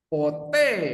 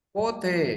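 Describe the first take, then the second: First: The stress is on the second syllable. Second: The stress is on the first syllable. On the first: It means never. "Tapi kalau penekanannya di e" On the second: It asks when. "pote itu penekannya di o ya. Pote itu artinya kapan"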